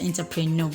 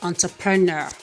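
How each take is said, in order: First: The first vowel is an 'eh' sound. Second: The first vowel is an 'on' sound. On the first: The speaker calls it wrong. "Mostly people pronounce this one as entrepreneur" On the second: The speaker calls it right. "the right pronunciation is entrepreneur"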